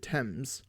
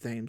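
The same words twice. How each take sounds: First: It is said the way British people pronounce it. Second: It is said the way Americans often pronounce it. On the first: The speaker calls it right. "That's how the British people pronounce it" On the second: The speaker calls it wrong. "A lot of Americans say Thames, but it's not pronounced Thames"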